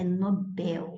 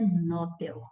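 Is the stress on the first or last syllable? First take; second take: last; first. First: The stress is on the last syllable. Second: The stress is on the first syllable. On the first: The speaker calls it right. "ela é oxítona" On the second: The speaker calls it wrong. "Não é Nobel"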